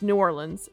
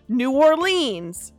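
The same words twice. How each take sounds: First: It is pronounced in the local regional way. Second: It is pronounced in a plain, non-local way. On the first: The speaker is from there. The speaker calls it right. "it's New Orleans" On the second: The speaker is not from there. The speaker calls it wrong. "you're clearly not local"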